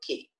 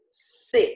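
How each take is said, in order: First: It starts with a K sound. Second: It starts with an S sound. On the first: The speaker calls it wrong. "eu não posso ler que" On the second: The speaker calls it right. "Eu vou ler C"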